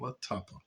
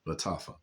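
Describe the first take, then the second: First: The last syllable begins with a P sound. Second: The last syllable begins with an F sound. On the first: The speaker calls it wrong. "not Latapa" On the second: The speaker calls it right.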